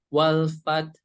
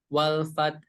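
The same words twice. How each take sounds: Both takes have the same delivery.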